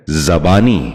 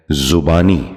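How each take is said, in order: First: زبانی starting with za, "za-baani"; correct زبانی. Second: زبانی starting with zu, "zu-baani"; mispronounced زبانی. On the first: Teacher modelling for viewers, زبانی said as "zabaani". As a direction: put a short a in the first syllable of زبانی. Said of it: "درست تلفظ ہے". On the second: Teacher showing viewers a common mistake, زبانی said as "zubaani". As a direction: put a short u in the first syllable of زبانی. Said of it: "یہ غلط تلفظ ہے". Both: Shown as a demonstration.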